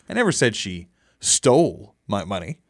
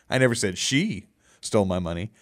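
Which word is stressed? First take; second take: stole; she. First: The stress is on the word 'stole'. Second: The stress is on the word 'she'. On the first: She took the money some other way. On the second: Someone else stole the money.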